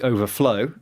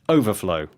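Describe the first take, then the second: First: The stress is on the last syllable. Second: The stress is on the first syllable. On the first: It is used as a verb. "Stress on the ... the final syllable" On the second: It is used as a noun. "with the stress on the ... First syllable"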